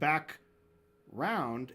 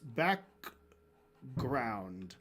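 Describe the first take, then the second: First: The word is said without the G sound. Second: The word is said with a clear G sound. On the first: "It's not back round" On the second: "it's back ground"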